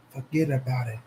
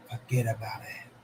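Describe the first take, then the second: First: Said in the usual way. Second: A hushed, breathy whisper of forget about it; whispered catchphrase. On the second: Shown as a demonstration. Streamer to chat, whispering the mob catchphrase. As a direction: drop to a secret whisper.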